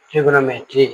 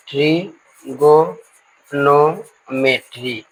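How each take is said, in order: First: Said in the usual way. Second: ट्रिगोनोमेट्री stretched out very slowly, each syllable separated. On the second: Shown as a demonstration. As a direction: sound out ट्रिगोनोमेट्री piece by piece for students. (ट्रिगोनोमेट्री को बहुत धीरे, हर खंड अलग करके) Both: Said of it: "हाँ".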